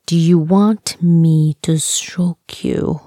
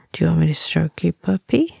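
First: Slow, measured re-asking; slow deliberate question. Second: Quick, understated question; quick casual question. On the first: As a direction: spell the question out slowly, word by word. Repeats question after wrong answer. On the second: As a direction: ask it quickly and lightly, rising at the end. First asking, before the retry. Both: Acted.

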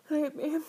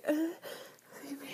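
First: Louder urgent begging; loud plea. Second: Breathy whispered plea. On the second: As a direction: beg in a whisper. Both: Acted. Begging during the act.

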